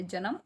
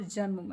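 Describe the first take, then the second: First: जन्म opened up into "ja-nam"; full N in जन्म. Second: जन्म with a joined "nm" ending; half N in जन्म. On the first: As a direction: say जन्म with a vowel between न and म. (जन्म को "जनम" बोलें, पूरे न से) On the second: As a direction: join न tightly to म in जन्म, "janm". (जन्म में आधा न, "जन्म") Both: Shown as a demonstration. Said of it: "तो ये अंतर है".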